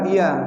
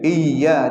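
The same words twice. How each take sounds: First: The y sound is short and single. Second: The y sound is doubled and held. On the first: The speaker calls it wrong. "jangan iya. Kalau saya kita bacakan iya berarti tanda tasdidnya hilang" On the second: The speaker calls it right. "ada tanda tasdid di atasnya"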